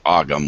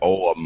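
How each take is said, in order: First: The middle G sound is clearly pronounced. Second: The middle G sound is swallowed and silent. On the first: The speaker calls it wrong. "the Brits pronounce it Ogham, which is not the way it's pronounced" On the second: The speaker calls it right. "You basically swallow the G as you're pronouncing it"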